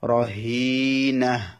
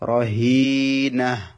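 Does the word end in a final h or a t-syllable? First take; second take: final h; final h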